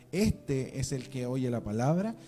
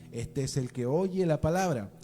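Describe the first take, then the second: The two takes are said the same way.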